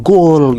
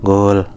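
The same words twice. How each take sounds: First: Higher-pitched mock goal yell; retold shout. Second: Understated imitation of a sleep-talker; sleep-talking echo. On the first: Atar cheers a goal while gaming, retold shout. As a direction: shout it like a gamer scoring. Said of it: "Atar teriak nih". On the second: Sleeping Bayu echoes his friend's shout, mock sleep-talk. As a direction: echo it as if half asleep. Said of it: "si Bayu tuh ngikutin".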